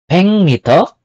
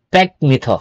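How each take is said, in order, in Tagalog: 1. Nagtatapos ang unang salita sa tunog na ng. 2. Nagtatapos ang unang salita sa tunog na k. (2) "not pek mito"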